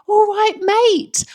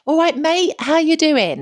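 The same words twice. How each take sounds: First: Slow, very high, loud London greeting; delighted echo. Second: High, loud cheery London greeting. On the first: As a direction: savour the words like a long-lost friend. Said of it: "I was like". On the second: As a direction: call out like a matey Londoner. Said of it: "this guy was literally like". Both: Retold or imitated.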